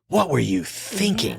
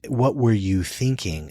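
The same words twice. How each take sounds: First: It sounds rhetorical and shaming. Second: It sounds genuinely curious and open.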